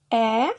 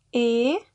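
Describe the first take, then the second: First: The vowel is an open E. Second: The vowel is a closed E. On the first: "La E aperta" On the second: "la E chiusa"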